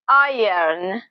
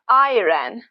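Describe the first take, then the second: First: The vowel sound comes before the R. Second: The vowel sound comes after the R. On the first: The speaker calls it right. "but iron. Exactly the same pattern" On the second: The speaker calls it wrong. "it's not pronounced as iron"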